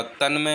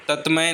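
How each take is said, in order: First: तन्मय with न्, the right form; teacher models the correct तन्मय. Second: तत्मय with त्, the incorrect form; teacher shows the mistaken तत्मय; wrong form तत्मय. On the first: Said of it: "तन्मय होता है". (सही उच्चारण तन्मय) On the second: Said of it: "तत्मय नहीं होता". (गलत रूप तत्मय) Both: Shown as a demonstration.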